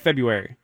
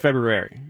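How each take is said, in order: First: The word is said without the first R. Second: The word is said with the first R. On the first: The speaker calls it wrong. "People say February" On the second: The speaker calls it right. "You got to throw in the R"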